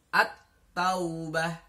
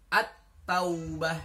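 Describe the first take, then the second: No difference in how they are said.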